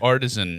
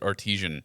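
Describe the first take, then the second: First: The word is said as 'artisan'. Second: The word is said as 'artesian'. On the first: The speaker calls it right. "Artisan is the correct way of saying it" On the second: The speaker calls it wrong. "I used to pronounce it artesian"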